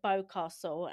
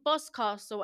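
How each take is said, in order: First: The first syllable sounds like 'bow'. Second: The first syllable sounds like 'boss'. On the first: The speaker calls it wrong. "I was pronouncing it wrong. I pronounced it Bowcastle" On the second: The speaker calls it right. "It's called Boscastle"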